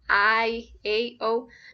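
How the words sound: The vowels are pronounced the English way. The speaker calls it wrong. "you shouldn't pronounce like I A O, not in English"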